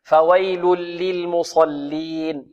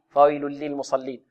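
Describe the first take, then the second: First: Slow "فويل للمصلين", each lam given its time; unhurried recitation. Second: "فويل للمصلين" run through quickly, lams skimmed, softer; snatched, hurried. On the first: Teacher shows the careful reading, slow measured "فويل للمصلين". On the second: Teacher shows the hasty reading, snatched "فويل للمصلين". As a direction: rush "فويل للمصلين" without lengthening. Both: Shown as a demonstration. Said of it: "يحذر القارئ من خطفها والإسراع فيها".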